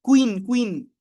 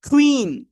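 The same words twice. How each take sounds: First: "কুইন" with a hard plain ক, no puff; unaspirated K. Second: "কুইন" with K like খ, high and falling; loud, high "কুইন" with a puff after K; aspirated K. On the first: Teacher shows how we usually read it, unaspirated K. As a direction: say "কুইন" the common local way, K unaspirated. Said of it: "That's not ক". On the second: Teacher corrects the K sound, aspirated K. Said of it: "খ এর মতো করে একটু সাউন্ডটা আসবে". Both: Shown as a demonstration.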